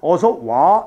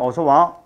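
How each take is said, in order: First: The vowel in 와 is held long. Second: The vowel in 와 is kept short. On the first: The speaker calls it wrong. "이게 아니라" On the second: The speaker calls it right. "이렇게 발음하더라"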